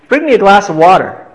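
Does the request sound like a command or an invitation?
command. It is said as a firm, commanding order. The listener is ordered to do it. "I was commanding it"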